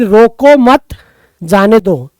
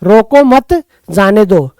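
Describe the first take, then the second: Both takes have the same delivery.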